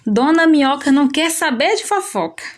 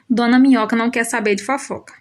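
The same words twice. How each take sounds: First: It is said with an emphatic, exclaiming tune. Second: It is said with a plain, falling statement tune. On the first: It expresses strong feeling about it. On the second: It simply states a fact.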